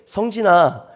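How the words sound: The name is called softly and gently. The child feels they did nothing wrong.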